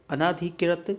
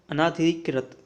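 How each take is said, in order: Both takes have the same delivery.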